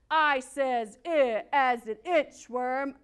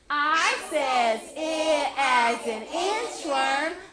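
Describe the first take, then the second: First: It is said in a football player voice. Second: It is said in a cowboy voice.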